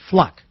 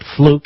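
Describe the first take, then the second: First: The vowel is a short 'uh' sound. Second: The vowel is a long 'oo' sound. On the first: The speaker calls it right. "it's Fluck. I was corrected" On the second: The speaker calls it wrong. "it's not fluke"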